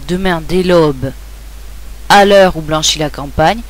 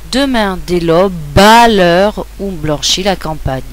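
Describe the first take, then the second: First: The final e of aube is sounded separately. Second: The final e of aube is silent, linked onward. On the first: The speaker calls it wrong. "On ne dira pas" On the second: The speaker calls it right. "il va s'unir au A"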